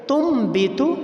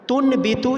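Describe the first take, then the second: First: An m sound comes before the b. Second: A plain n sound comes before the b. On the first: The speaker calls it right. "बल्कि तुम बीतू" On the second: The speaker calls it wrong. "ये लफ्ज़ पढ़ना ये गलत है"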